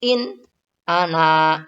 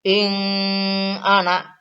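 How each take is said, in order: First: "In ana" with the nun said clearly and held, no humming. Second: "ing ana" with the n turned into a nasal ng; wrong nasal reading. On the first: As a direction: keep the n of "In" clean before "ana". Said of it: "dibaca jelas". (nun mati dibaca jelas pada "In ana") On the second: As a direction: slur "ing" into "ana" as a mistake. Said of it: "Ataupun dibaca ing ana. Tidak boleh". (bacaan salah "ing ana" dengan bunyi sengau) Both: Shown as a demonstration.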